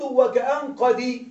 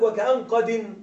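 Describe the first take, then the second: First: قد said as qadi, kasra stretched into a long i, slowly; the original kasra of قد lengthened into a vowel; original form with kasra. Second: قد said as qadin, ending in a clear n; showing the tanween nun on قد; the rhyme word with tanween. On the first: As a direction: read وكأن قد drawn out, ending qadi without the nun. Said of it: "فالأصل". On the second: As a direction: read وكأن قد with the nun sounded at the end, qadin. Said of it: "عندك". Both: Shown as a demonstration.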